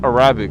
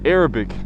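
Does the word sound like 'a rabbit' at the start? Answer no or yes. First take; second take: yes; no. First: The word sounds like 'a rabbit'. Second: The word does not sound like 'a rabbit'. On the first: The speaker calls it wrong. "I always say Arabic, kind of like a rabbit" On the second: The speaker calls it right. "Arabic, not Arabic"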